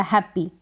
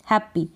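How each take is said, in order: First: हैप्पी with a long, stressed ee at the end; wrong stressed ending. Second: हैप्पी with a short light i at the end; short unstressed ending. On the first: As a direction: lean on the last ee of हैप्पी. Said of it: "ये pronunciation नहीं होगा". (गलत, आखिरी ई पर ज़ोर) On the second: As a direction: keep the final i of हैप्पी short, no stress. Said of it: "ई का उच्चारण थोड़ा शॉर्ट होगा". (सही, छोटी ई बिना दबाव) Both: Shown as a demonstration.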